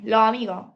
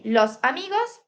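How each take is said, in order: First: "los amigos" said as "lo amigo", final S of both words dropped; Caribbean style, swallow the S at the end of "los" and "amigos"; "los amigos" with no final S sounds, Caribbean Spanish. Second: Said in the usual way. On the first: Shown as a demonstration. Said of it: "Aspiración o pérdida de la S final". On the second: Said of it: "En vez de decir".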